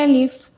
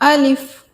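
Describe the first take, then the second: First: It is said with a weak, soft voice. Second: It is said with a firm, strong voice. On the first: The speaker calls it wrong. "इसको कभी भी ऐसे नहीं पढ़ना है" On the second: The speaker calls it right. "आपकी आवाज़ में एक मजबूती होनी चाहिए"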